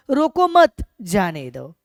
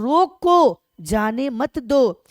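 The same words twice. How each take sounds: First: रोको मत joined and loud, a break, then जाने दो; pause after मत. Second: रोको loud and drawn out, then a break before जाने मत दो; pause after रोको. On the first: Teacher contrasting the second reading, pause after मत. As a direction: lean on मत, pause, then let जाने दो follow. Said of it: "और इसका अर्थ हुआ". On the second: Teacher contrasting two readings for students, pause after रोको. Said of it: "इसमें कहा जा रहा है". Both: Shown as a demonstration.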